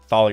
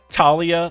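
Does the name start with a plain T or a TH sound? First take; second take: TH; plain T. First: The name starts with a TH sound. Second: The name starts with a plain T sound. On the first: "I'll keep saying Thalia" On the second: "is it like just a T sound"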